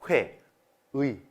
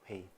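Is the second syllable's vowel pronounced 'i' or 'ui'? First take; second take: ui; i. First: The second syllable has the diphthong 'ui'. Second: The second syllable has the plain vowel 'i'. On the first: "싹 다 의로 발음하시면 됩니다" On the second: "글자의 첫 글자에 있지 않은 의는 이로 발음해도 됩니다"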